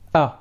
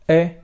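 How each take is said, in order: First: The vowel is a clear open a. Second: The vowel leans toward an e sound. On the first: The speaker calls it right. "We shall say a, a clear, pure fatha" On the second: The speaker calls it wrong. "mixed a little bit with al-kasra. So we don't say e"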